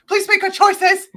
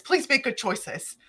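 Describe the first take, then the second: First: High, loud mock-desperate plea; imitating escalating, exasperated begging; desperate pleading. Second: Slow, controlled plea, raised pitch; imitating a patient, careful appeal; measured pleading. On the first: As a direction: cry it out as a last appeal. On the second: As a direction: plead slowly, keeping the volume down. First take of retold plea.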